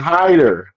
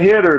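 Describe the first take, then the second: First: The name sounds like 'hider'. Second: The name sounds like 'hitter'. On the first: The speaker calls it right. "It's hider" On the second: The speaker calls it wrong. "It's not hitter though"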